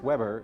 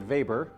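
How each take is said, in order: First: The name is read with an American pronunciation. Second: The name is said with a German pronunciation. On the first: The speaker calls it wrong. "As an American, we'd see this name and think his name is" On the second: The speaker calls it right. "It's really"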